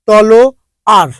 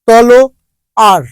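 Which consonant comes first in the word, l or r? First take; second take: l; l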